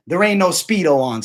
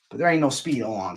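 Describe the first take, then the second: First: There ain't no Speedo on, said louder and higher with a hard hit on ain't; louder, punchier retort; emphatic repeat. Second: Said in the usual way. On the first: Shown as a demonstration. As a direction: hammer the line home the second time. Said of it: "repeated for emphasis". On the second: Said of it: "repeats it louder".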